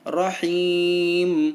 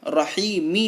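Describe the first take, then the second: First: The word ends on a silent final m. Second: The word ends with a short i vowel. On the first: The speaker calls it right. "लेकिन हमें पढ़ना है रहीम, मीम को साकिन करना है" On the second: The speaker calls it wrong. "यहाँ भी देखिए रहीमी लिखा हुआ है"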